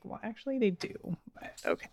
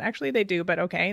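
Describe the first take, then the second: First: Barely voiced aside, trailing to a whisper; muttered under breath. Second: Said in the usual way. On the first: Mom muttering back at her son under her breath. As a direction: mutter it so the kid can't hear. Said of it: "And I'm like". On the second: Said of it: "when I just said that".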